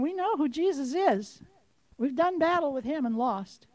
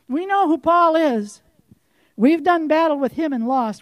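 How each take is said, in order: First: Softer, subdued spirit voice; quiet admission. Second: Louder, emphatic spirit voice; forceful repeat. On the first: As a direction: concede it quietly. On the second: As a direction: hammer it home louder. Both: Acted.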